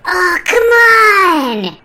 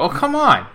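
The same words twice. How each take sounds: First: It is said in an overacted kid-actor way. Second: It is said in a natural, relaxed way.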